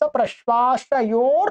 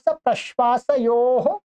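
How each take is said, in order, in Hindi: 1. यह शब्द र ध्वनि पर खत्म होता है। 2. यह शब्द श्वास वाली ह ध्वनि पर खत्म होता है। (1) "इसके ऊपर र मिलेगा" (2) "ये मैंने थोड़ा सा सूत्र को तोड़ करके लिखा है"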